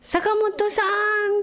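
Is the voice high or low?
high. It is said in a high voice.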